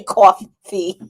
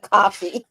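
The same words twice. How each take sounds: First: "coffee" as a slow "cawf-fee"; drawn-out New York "coffee". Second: "coffee" with an open "ah" vowel; unrounded first vowel in "coffee"; non-New York coffee. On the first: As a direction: stretch "coffee" out with a rounded "aw". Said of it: "I might say coffee". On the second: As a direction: say "coffee" as "cahfee". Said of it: "instead of coffee". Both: Shown as a demonstration.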